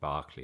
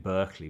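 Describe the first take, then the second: First: The first syllable sounds like 'bar'. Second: The first syllable sounds like 'burr'. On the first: This is how the name is actually said. The speaker calls it right. "the pronunciation is Berkeley, like Barclaycard" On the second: This follows the spelling. The speaker calls it wrong. "It's written Berkeley"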